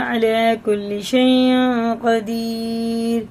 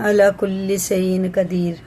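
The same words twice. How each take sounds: First: The first word begins with a throaty ain sound. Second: The first word begins with a plain vowel sound. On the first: The speaker calls it right. "ऐसे ही पढ़ना" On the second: The speaker calls it wrong. "ऐसे नहीं पढ़ना"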